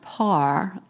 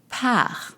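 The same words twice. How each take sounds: First: The A vowel is low and dark. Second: The A vowel is high-pitched and bright. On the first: The speaker calls it wrong. "so it's not par" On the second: The speaker calls it right. "the A sound in French is high pitch"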